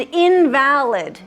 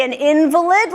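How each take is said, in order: First: "invalid" said slowly in-VAL-id; "invalid" with a full A in stressed VAL; stress on second syllable. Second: "invalid" said IN-vuh-lid; "invalid" with stressed IN and weak middle; stress on first syllable. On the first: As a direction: hit VAL in "invalid", meaning not legitimate. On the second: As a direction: hit IN in "invalid", meaning a sick person. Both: Shown as a demonstration. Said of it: "there's two ways to pronounce this word".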